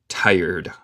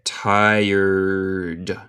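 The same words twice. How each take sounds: First: Said in the usual way. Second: "tired" drawn out slowly through to the final d; slow, elongated "tired" for a learner; pronunciation demo. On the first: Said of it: "No hay E". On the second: Shown as a demonstration. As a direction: stretch out "tired" so every sound is audible. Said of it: "a mí suena como de".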